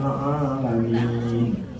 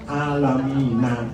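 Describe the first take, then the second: First: The word stops on the final consonant. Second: The word ends with an added vowel. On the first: The speaker calls it right. "Secara umum cara membaca wakaf adalah disukun" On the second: The speaker calls it wrong. "Nah itu namanya nggak tahu cara membaca wakaf"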